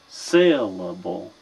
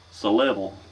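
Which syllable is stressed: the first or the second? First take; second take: first; second. First: The stress is on the first syllable. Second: The stress is on the second syllable. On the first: The speaker calls it right. "So the first one is accented" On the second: The speaker calls it wrong. "If you were to accent the second syllable, it would be syllable"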